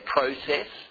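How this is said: It is said with the older Australian pronunciation. "we used to say process"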